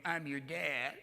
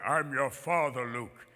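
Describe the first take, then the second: First: Mock fey little writer voice; Truman Capote. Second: Low, slow villain voice; Darth Vader. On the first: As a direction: impersonate a soft, fussy author, drawn out. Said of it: "It wasn't Truman Capote going". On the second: Acted. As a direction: intone it deep and slow. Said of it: "Darth Vader was the voice of James Earl Jones".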